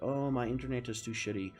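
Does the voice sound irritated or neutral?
neutral. It is said in a neutral voice.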